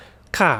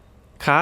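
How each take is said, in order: First: ค่ะ dropping in pitch to close a statement; falling statement tone. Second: ค่ะ said rising high like a question. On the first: Teacher showing the statement particle, falling tone on ค่ะ. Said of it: "whether it's a statement". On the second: Teacher showing the question particle, high rising tone on ค่ะ. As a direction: lift ค่ะ upward at the end. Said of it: "If it's a question". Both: Shown as a demonstration.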